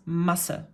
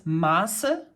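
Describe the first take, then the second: First: Masse with a short first vowel. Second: Maße with a long, drawn-out first vowel. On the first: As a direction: keep the A in Masse quick and short. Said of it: "pronounced rather short, shortly". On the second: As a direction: stretch the A in Maße, ending on a rise. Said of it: "elongate the, va-, the vowel". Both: Shown as a demonstration.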